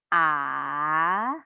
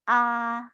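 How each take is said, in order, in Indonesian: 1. Nadanya turun dulu lalu naik, dipanjangkan. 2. Nadanya tetap datar sepanjang waktu. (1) "seperti naik gunung ... diperpanjang" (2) "seperti kita bicara seperti biasanya"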